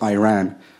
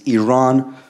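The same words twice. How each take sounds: First: The name is said the anglicized way. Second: The name is said the native way. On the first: The speaker calls it wrong. "not Iran. ... you're pronouncing our country's name wrong" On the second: The speaker calls it right. "Our country is named Iran"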